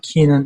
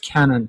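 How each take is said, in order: First: The first vowel is a long 'ee' sound. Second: The first vowel is a short 'e' sound. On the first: The speaker calls it wrong. "For it to be Keenan, there has to be two E's" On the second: The speaker calls it right. "not a single E"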